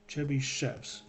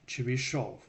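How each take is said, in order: First: The name ends with an English-style 'shev' sound. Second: The name ends with a Russian-style 'shov' sound.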